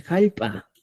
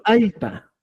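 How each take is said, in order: First: "jalpa" opening on an aspirated J; regional pronunciation with J. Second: "alpa" high, starting straight on A; pronounced without J. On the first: Teacher showing a local form, "jalpa" with J. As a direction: add a J sound before A in "jalpa". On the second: Teacher presenting the word, "alpa" without initial J. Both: Shown as a demonstration. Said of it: "en algunos lugares dice".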